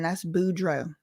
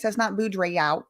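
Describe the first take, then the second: First: "Boudreaux" said the Cajun way, boo-DROH; right pronunciation. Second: "Boudreaux" read as it looks spelled; mock the misreading of "Boudreaux"; wrong pronunciation. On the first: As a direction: give the proper Louisiana "Boudreaux". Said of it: "No, ma'am". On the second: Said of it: "No, ma'am. That's Boudreaux". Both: Shown as a demonstration.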